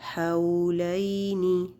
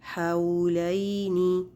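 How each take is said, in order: Both takes have the same delivery.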